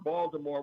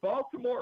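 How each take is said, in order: First: The middle consonant is a D sound. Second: The middle consonant is a clear T sound.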